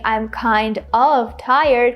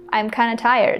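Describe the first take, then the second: First: Kind of is said fully as two words. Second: Kind of is reduced to kinda. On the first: "Instead of saying I'm kind of tired" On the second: "we can just say I'm kinda"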